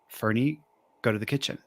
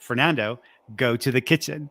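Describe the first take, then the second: First: It is said softly and subtly. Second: It is said in a louder tone.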